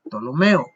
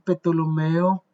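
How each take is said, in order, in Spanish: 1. La P inicial es muda. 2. La P inicial se pronuncia. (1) "la P no se dice en español" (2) "ellos pronuncian la P"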